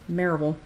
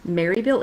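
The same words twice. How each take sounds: First: The first syllable sounds like 'Merv'. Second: The first syllable sounds like 'Mary'. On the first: This is how locals say the name. The speaker calls it right. "it is Maryville. M E R V" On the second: This is how outsiders say the name. The speaker calls it wrong. "it is not Maryville"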